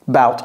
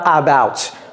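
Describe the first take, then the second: First: The first vowel is a weak, reduced schwa. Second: The first vowel is a full, clear 'a'. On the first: The speaker calls it right. "ce A, c'est un choix" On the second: The speaker calls it wrong. "on ne dit pas about"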